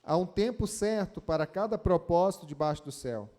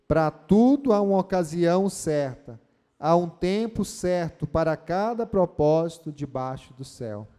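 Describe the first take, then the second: First: Said in the usual way. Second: Louder verse recited together; loud group recital. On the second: Shown as a demonstration. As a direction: lead the church in reciting it. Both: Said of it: "Você pode repetir comigo o verso primeiro".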